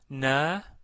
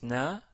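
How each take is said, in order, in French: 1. La voyelle est longue. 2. La voyelle est brève. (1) "avec la voyelle longue alif" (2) "avec la fatha"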